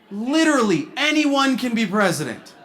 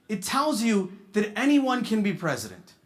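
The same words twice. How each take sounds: First: Anyone punched louder on the repeat; stress on anyone. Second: Said in the usual way. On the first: Shown as a demonstration. Comic repeating the point, anyone hit louder. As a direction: lean hard on anyone, literally.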